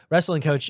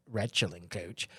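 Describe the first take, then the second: First: Said in the usual way. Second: "wrestling" said as "retchling", slow and low; slurred slip. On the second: Shown as a demonstration. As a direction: draw out "wrestling" with a ch sound, softly. Repeats own slurred slip, then corrects.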